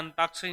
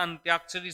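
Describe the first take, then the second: First: अंताक्षरी said with plain "ta", no y glide; wrong form without y. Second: अंत्याक्षरी with a clear "tya" glide; correct form with y. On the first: Teacher showing students the error, अंताक्षरी with no y sound. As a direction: say अंताक्षरी as an-TAAK-sha-ri. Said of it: "अंताक्षरी नहीं होता". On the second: Teacher giving students the correct word, अंत्याक्षरी with "tya". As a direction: say अंत्याक्षरी as ant-YAAK-sha-ri. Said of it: "अंत्याक्षरी शब्द होता है". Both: Shown as a demonstration.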